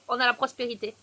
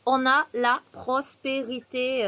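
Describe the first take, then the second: First: Said in the usual way. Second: Slowly, savouring "prospérité"; slow emphatic. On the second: Real, not acted. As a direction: draw out the words for emphasis. Repeats card, drawn out.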